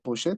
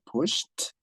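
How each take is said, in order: First: The ending is said as an extra syllable. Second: The ending is a plain t sound. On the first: The speaker calls it wrong. "no se pronuncia push it" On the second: The speaker calls it right. "se pronuncia pushed"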